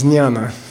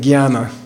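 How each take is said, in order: First: It is pronounced differently from that Indian way. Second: It is pronounced the way some Indians say it. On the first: The speaker calls it right. "but it's jnana" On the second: The speaker calls it wrong. "Some people in India say jnana"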